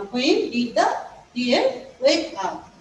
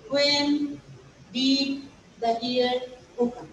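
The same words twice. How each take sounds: First: Slow, careful dictation of wake up; teacher dictating the correct verb form wake; correct form shown. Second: Slow, deliberate wrong example woke up; teacher showing the wrong verb form woke; wrong form shown. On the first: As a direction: read the right question slowly for students to copy. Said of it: "You have to write". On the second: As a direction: read out the mistake slowly as a warning. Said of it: "we shall not write woke up". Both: Shown as a demonstration.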